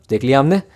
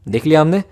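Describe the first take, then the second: No difference in how they are said.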